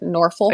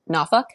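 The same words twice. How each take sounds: First: It is said the way outsiders say it. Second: It is said the way locals say it. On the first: This is not how people from the city say it. "the way people don't pronounce it from here" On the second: This is how people from the city say it. "I've learned to pronounce it Norfolk"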